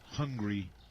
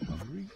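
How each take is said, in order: First: The voice falls at the end, as a statement. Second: The voice rises at the end, as a question.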